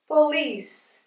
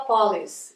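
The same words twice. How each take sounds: First: "police" stressed on the final -LICE; stress on second syllable. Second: "police" wrongly stressed as PO-lice; mistaken first-syllable stress. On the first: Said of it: "Mudou a sílaba tônica". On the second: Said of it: "muita gente erra". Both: Shown as a demonstration.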